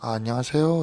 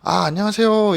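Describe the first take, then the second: First: It is said with low, subdued energy. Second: It is said brighter, with livelier, higher energy.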